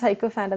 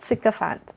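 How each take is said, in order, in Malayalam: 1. ആദ്യ അക്ഷരം 'sigh' പോലെയാണ് കേൾക്കുന്നത്. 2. ആദ്യ അക്ഷരം 'sick' പോലെയാണ് കേൾക്കുന്നത്. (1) "നമ്മൾ നോർമലി എങ്ങനെ വായിക്കും, ... ഇറ്റ്സ് നോട്ട് ലൈക്ക് ദാറ്റ്" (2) "സിക്കഫാൻറ്റം എന്നാണ് വായിക്കേണ്ടത്"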